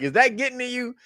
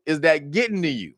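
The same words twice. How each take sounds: First: Higher teasing repeat through a laugh; mocking taunt. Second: Said in the usual way. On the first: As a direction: needle him, high and taunting. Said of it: "It was like". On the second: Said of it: "they went to Trump and they asked him".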